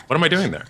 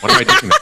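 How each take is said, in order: First: Said in the usual way. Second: Much higher, louder laughing question; laughing disbelief. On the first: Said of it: "repeats calmer". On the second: Real, not acted. Forty-year-old on Snapchat laughing at himself. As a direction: laugh at your own absurdity. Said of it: "laughing at himself".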